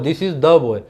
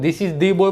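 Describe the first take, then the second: First: The word 'the' is said with a short 'uh'. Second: The word 'the' is said with a long 'ee'. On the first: The speaker calls it right. "द नहीं बोलेंगे... this is द boy बोलेंगे" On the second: The speaker calls it wrong. "This is दी boy बोलना गलत होगा"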